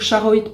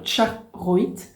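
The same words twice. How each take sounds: First: The word begins with a plain 'sh' sound. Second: The word begins with a 'tch' sound. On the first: It is an easier, simplified pronunciation. The speaker calls it wrong. "je vais dire Charoite pour être euh, un peu plus fluide" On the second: It is the usual pronunciation of the name. The speaker calls it right. "ça se prononce un peu comme avec un T devant"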